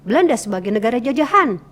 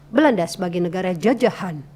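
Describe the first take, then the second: First: The pitch rises on the final word. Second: The pitch falls on the final word.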